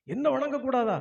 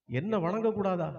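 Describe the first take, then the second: First: Higher, indignant outburst; the proud king of gods bristling with rage; outraged god. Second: A touch of indignation, held in; offended disbelief. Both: Acted. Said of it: "இந்திரனுக்கு வந்ததே கோபம்".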